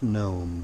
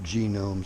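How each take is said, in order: First: The word starts with a plain n sound. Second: The word starts with a hard g sound. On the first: The speaker calls it right. "I know it's pronounced gnome" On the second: The speaker calls it wrong. "all the damn kiddies pronounce it genome"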